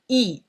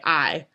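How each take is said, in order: First: The letter is given its French pronunciation. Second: The letter is given its English pronunciation. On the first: The speaker calls it right. "the correct pronunciation for I is E" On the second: The speaker calls it wrong. "you really want to say I"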